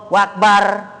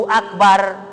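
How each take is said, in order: The two takes are said the same way.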